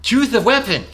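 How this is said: It is said in the character's special voice.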